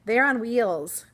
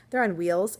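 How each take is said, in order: First: "They're on wheels" said slow and loud, each word deliberate; careful correction. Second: Said in the usual way. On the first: Shown as a demonstration. Teacher fixing her own slip, slow loud deliberate correction. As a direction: spell out "wheels" slowly after tripping. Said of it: "There we go". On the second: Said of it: "Yes, I can speak".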